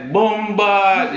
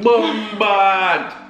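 First: The words are said at normal speed. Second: The words are drawn out slowly.

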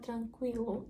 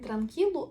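First: The k is followed by a w sound. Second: The k is followed directly by an i sound. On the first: The speaker calls it right. "а транквілу" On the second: The speaker calls it wrong. "Не транкілу"

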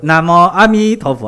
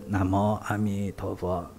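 First: It is said strongly, with full breath and voice. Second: It is said weakly, with little voice or breath. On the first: The speaker's energy has come back. The speaker calls it right. "哎，气儿就来了。" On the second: The speaker has no energy behind the words. The speaker calls it wrong. "没有声音嘛，没有气力。"

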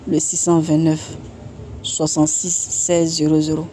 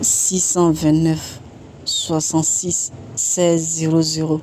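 First: The number is said at normal speed. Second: The number is said slowly.

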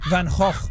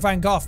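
First: The G sounds are rasped in the throat. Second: The G sounds are plain, not throaty. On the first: This is how Dutch speakers say it. The speaker calls it right. "apparently it's Van Gogh. That's how they pronounce their G's. Very guttural" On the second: This is the common way people say it. The speaker calls it wrong. "Everyone says Van Gogh"

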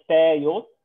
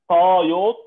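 First: The first consonant is a plain, light t. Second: The first consonant is an emphatic, heavy t. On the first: The speaker calls it wrong. "ما اقولش تايوت" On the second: The speaker calls it right. "يعني نقول طايوت"

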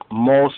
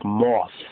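First: The word ends with an s sound. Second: The word ends with a th sound. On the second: "so almost like moth"

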